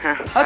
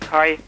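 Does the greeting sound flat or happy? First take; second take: happy; flat. First: The greeting sounds happier and more cheerful. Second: The greeting sounds flat and unenthusiastic.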